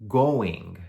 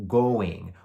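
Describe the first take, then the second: No difference in how they are said.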